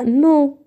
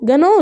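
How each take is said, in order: First: The g is silent, starting directly with n. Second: The g sound is pronounced before the n. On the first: The speaker calls it right. "لا نو" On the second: The speaker calls it wrong. "جانو لا"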